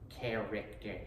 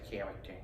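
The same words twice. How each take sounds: First: It is said in a Peter Griffin voice. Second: It is said in his own normal voice.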